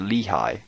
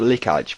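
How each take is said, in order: First: The name is said like 'Lehigh'. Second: The name is said like 'Likaj'. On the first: This is how someone else says it should be said. "someone said you pronounce it Lehigh" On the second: This is how the speaker used to say it. "I used to pronounce it Likaj"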